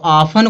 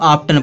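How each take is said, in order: First: The t sound is silent in the middle. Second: The t sound is pronounced in the middle. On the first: The speaker calls it right. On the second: The speaker calls it wrong.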